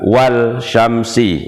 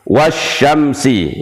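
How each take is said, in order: First: The l sound is pronounced before sy. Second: The l sound is dropped before sy. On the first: The speaker calls it wrong. "bukan wal syamsi" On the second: The speaker calls it right. "alnya langsung dihilangkan, jadi dari wa ke sya"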